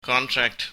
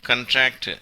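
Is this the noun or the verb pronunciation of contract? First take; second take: noun; verb. First: It is said with the noun pronunciation. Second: It is said with the verb pronunciation. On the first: It means a written agreement. "பெயர் சொல்லாக, நவுனாக அது பயன்படுத்தப்படும் போது கான்ட்ராக்ட் என்று உச்சரிக்கப்படுகிறது" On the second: It means to shrink or to make an agreement. "வினை சொல்லாக, அதாவது வேர்பாக பயன்படுத்தப்படும் போது கண்ட்ராக்ட் என்று உச்சரிக்கப்படுகிறது"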